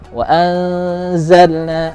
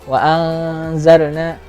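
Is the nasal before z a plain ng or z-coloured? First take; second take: z-coloured; plain ng. First: The hidden nasal blends toward the z sound. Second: The hidden nasal is a plain ng sound. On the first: It matches the following letter as it should. The speaker calls it right. "huruf zai-nya disamarkan seperti ini" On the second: It is acceptable only for beginners. The speaker calls it wrong. "jadi kalau latihan awal-awal ya boleh lah"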